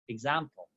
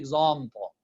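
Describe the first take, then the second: First: The first vowel is a light, bright a. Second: The first vowel is a heavy, dark a. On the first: The speaker calls it right. "This is again light" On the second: The speaker calls it wrong. "We don't say example"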